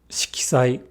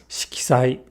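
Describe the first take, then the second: No difference in how they are said.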